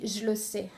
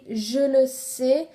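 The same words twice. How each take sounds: First: The first word is reduced and assimilated. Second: Every word is pronounced fully and separately. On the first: "souvent à l'oral on dit" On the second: "elle écrit"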